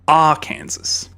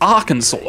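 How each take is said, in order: First: The word ends like 'Kansas'. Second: The word does not end like 'Kansas'. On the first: This is how the spelling suggests it is read. "Kansas, but the R variant" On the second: This is how the name is actually said. "But it's it's Arkansas, and it makes no sense"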